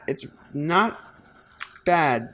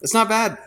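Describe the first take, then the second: First: "It's not" held, a pause, then "bad"; hesitant reappraisal. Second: Higher and louder, delighted it works; pleased surprise. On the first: Artist judging his hat drawing again, hesitant and drawn out. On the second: Artist judging his hat drawing, pleased and louder. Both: Real, not acted.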